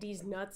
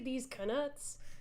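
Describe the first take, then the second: First: The second word starts with a plain N sound. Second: The second word starts with a K then N. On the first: It sounds rude. The speaker calls it wrong. "if you're just saying these nuts out out loud" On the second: It refers to the wizard coins. The speaker calls it right. "say these knuts"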